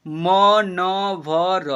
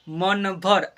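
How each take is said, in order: First: "मनभर" very slow as म, न, भ, र; letter by letter. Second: Said in the usual way. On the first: Shown as a demonstration. Teacher asking learners to read "मनभर", letter by letter. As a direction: sound out "मनभर" in four separate long syllables. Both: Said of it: "क्या पढ़ेंगे इसे?".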